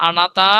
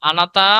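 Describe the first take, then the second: The two takes are said the same way.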